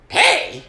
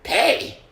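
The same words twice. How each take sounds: First: Much higher, louder mock disbelief; even more incredulous echo. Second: High, louder mock disbelief; incredulous echo. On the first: Club owner scoffing at paying comedians, higher disbelief. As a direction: push the disbelief further, almost a squeak. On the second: Club owner mocking the comics' pay, incredulous. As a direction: toss the word back, outraged. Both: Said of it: "he's kinda like".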